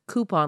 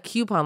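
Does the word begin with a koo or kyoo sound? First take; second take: koo; kyoo. First: The word begins with a koo sound. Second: The word begins with a kyoo sound. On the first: "like Cooper" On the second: "like Q-tip"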